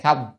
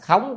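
First: The word is said with a level tone. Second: The word is said with a rising tone. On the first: It means no or not. The speaker calls it wrong. "chứ không phải không à" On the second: It means empty or lacking. The speaker calls it right. "phải đọc là khống"

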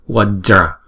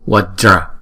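No difference in how they are said.

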